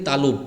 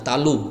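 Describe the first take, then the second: The two takes are said the same way.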